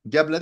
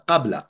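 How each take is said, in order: First: The word begins with a voiced g sound. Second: The word begins with a voiceless k-like sound. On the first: The speaker calls it wrong. "Geble değil de" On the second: The speaker calls it right.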